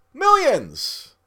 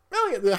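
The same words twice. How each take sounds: First: Millions hit high and loud with a falling tune; emphatic millions. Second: Millions again, high but softer and falling; softer repeat. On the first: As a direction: punch millions high and loud, then let it fall. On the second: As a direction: echo millions, dropping the volume. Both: Real, not acted.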